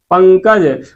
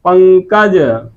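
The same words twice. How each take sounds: First: Said in the usual way. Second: पंकज stretched very slowly, the nasal held long; slow nasal demo. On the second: Shown as a demonstration. Teacher stretching पंकज slowly for students, slow nasal demo. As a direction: draw out पंकज, lingering on its nasal. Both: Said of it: "कोई भी शब्द आप ले लेंगे".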